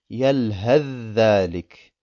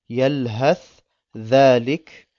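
First: The th disappears into the dh sound. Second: The th is heard before the dh. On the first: "das Tha verschwindet ganz" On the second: "wenn das Tha Saken ist und danach ein Dhal folgt"

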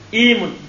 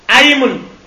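First: The word begins with an 'i' vowel. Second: The word begins with an 'a' vowel. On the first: "boleh antum kasur pada aimun" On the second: "Bifatihima dengan difatah"

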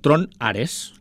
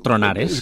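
First: The two words are said as separate words. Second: The two words run together as one word. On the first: It names the film. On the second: It sounds like the rumbling of thunder.

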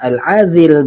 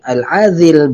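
First: The middle consonant is a voiced 'th' sound. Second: The middle consonant is a voiced 'th' sound.

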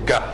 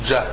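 First: It starts with a hard g sound. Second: It starts with a soft j sound. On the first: The speaker calls it right. "دايما بيتنطق جه زي الجيم البحراوي كده" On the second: The speaker calls it wrong. "ما بننطقوش جه"

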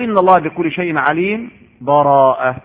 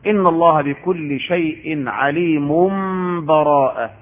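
First: A brief silent stop without breath precedes the last word. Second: The last word follows with no break at all. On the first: "ومنهم من يسكت يعني يقف بلا نفس" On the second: "في الوصف"

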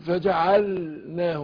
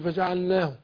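First: The l sound is pronounced clearly and distinctly. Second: The l sound is not pronounced clearly. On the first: The speaker calls it right. "أظهر اللام" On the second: The speaker calls it wrong. "ما قولش"

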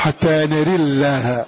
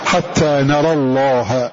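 First: The vowel after the R leans toward e. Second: The vowel after the R is an open a. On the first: "الإمالة فنقول" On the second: "بالفتح"

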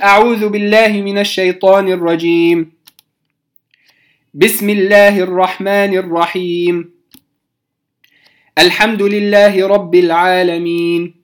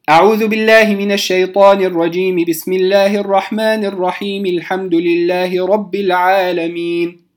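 First: A pause comes after each of the three phrases. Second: All three phrases run together without any pause. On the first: "قطعت بين الاستعاذة والبسملة، ثم بين البسملة وأول الفاتحة" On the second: "أن أصل الجميع"

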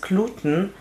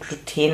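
First: The word is said with an English pronunciation. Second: The word is said with a German pronunciation. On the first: "das Gluten ist Englisch" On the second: "Gluten ist Deutsch"

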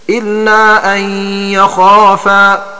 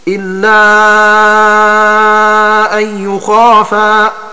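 First: The verb starts with an a vowel. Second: The verb starts with a u vowel. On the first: "بفتحها" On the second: "بضم الياء"

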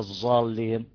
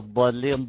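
First: The consonant is a z sound. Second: The consonant is the emphatic d sound. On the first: The speaker calls it wrong. "مش زين" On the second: The speaker calls it right. "ضادها"

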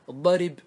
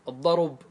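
First: The r is followed by an i vowel. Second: The r is followed by a u vowel. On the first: "نقلت ايش؟ الكسرة" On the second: "نقلنا ايش؟ الضمة"

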